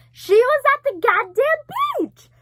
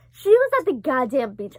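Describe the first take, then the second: First: High, loud, drawn-out shriek; shouted disbelief. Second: Said in the usual way. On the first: Real, not acted. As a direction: shriek the astonishing reveal slowly. Stunned reveal of dream coming true.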